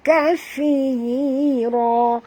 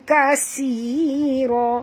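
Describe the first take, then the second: First: The middle consonant is a th sound. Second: The middle consonant is an s sound. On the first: The speaker calls it right. "sentil lidah" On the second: The speaker calls it wrong. "bukan kasira"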